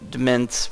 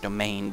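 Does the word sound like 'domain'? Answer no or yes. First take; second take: no; yes. First: The word does not sound like 'domain'. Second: The word sounds like 'domain'. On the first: The speaker calls it wrong. "which is how I've been pronouncing it" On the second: The speaker calls it right. "I guess it's actually pronounced domain"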